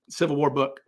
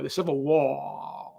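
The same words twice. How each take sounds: First: Said in the usual way. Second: Very slow Delta drawl stretching "war" into three syllables; Shelby Foote drawl. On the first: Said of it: "turn the word war into a three-syllable word". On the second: Retold or imitated. Imitating Shelby Foote saying war as a three-syllable word. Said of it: "he would go".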